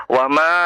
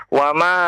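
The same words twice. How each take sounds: Both takes have the same delivery.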